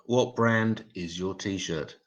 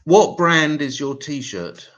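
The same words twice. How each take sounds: First: Said in the usual way. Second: Higher, louder and slow, leaning on what; punchy joke setup. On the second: Shown as a demonstration. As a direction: ask it big and slow, selling the setup of the joke. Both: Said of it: "Here we go".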